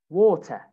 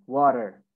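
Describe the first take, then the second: First: British "water", "waw-tuh" with no final R; British accent. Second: American "water" with R sounded at the end; American accent. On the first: Teacher drills British "water", no R at the end. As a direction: say "water" the British way, crisp T, R dropped. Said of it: "You don't say the R". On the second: Teacher models American "water" for students, final R sounded. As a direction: say "water" the American way, "wah-der". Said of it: "In America". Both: Shown as a demonstration.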